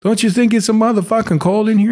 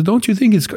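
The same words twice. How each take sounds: First: Put-on high, lightly Italian-American old man; Italian accent. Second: Put-on light Italian-American accent, high. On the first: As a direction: redo the line with the Italian accent. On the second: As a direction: imitate an old Italian man. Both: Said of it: "he's got an Italian accent".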